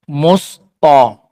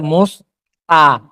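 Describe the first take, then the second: First: The t sound is heavy and emphatic. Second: The t sound is light and plain. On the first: This is the changed form that is easier to say. "Yang mirip to apa? Ta. Musto. Dekat kan?" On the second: This is the original form of the word. "Daripada musta. Jauh kan?"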